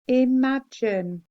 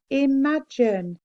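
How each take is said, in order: Both takes have the same delivery.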